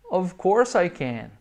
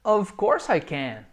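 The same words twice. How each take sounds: First: Slow, clear answer with of as V; slow model answer. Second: Slow, clear answer; slow model answer. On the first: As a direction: say it slowly again. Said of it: "repeated model". (resposta lenta, of com som de V) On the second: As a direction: model it slowly for students. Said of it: "Lembrando que esse of tem som de V". (resposta lenta e clara) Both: Shown as a demonstration.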